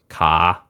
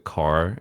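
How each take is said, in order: First: It has an Australian accent with a silent R. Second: It has an American accent with a pronounced R. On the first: "we go car" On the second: "You guys go car"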